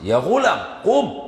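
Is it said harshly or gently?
harshly. It is said roughly and harshly.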